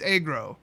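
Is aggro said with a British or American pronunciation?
American. It is said the American way.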